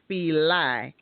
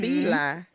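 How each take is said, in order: First: The name is said in a Southern pronunciation. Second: The name is said in the standard pronunciation. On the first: This is how people in the South say it. The speaker calls it wrong. "I'm from the South, so we say Fili" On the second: This is how most people say it. The speaker calls it right. "And you say"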